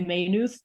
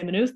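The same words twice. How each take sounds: First: It is said the way outsiders say it. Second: It is said the way locals say it. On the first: The speaker has never been there. The speaker calls it wrong. "they say" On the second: The speaker knows the place. The speaker calls it right. "people from outside of Maynooth don't say"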